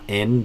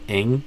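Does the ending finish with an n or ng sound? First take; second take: n; ng. First: The ending finishes with a plain n sound. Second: The ending finishes with an ng sound. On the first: The speaker calls it wrong. "not in" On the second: The speaker calls it right. "but ing"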